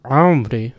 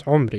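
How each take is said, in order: First: "hombre" with a drawn-out "ah" glide after the ayn; student's wrong ayn. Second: "hombre" going from the ayn straight into the rounded vowel; no "ah" before the o of "hombre"; correct ayn glide. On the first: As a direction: stretch the opening of "hombre" into "a-om". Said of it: "you get people say". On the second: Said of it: "straight into the U". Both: Shown as a demonstration.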